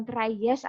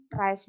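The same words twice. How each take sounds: First: "try yes" as two pieces, "trai-yes"; wrong pronunciation. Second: Said in the usual way. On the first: Shown as a demonstration. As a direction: add a separate "yes" syllable in "try yes". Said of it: "jadi bukan try yes atau cry yes". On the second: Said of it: "jadi bukan try yes".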